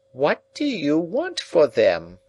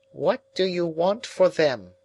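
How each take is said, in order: First: High, slow, pressing repeat; insistent old woman. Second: High, thin, quietly probing; quiet old woman. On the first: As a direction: press the question again, slowly. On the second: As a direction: ask it softly, as an old woman. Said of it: "said quietly". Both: A narrator's reading.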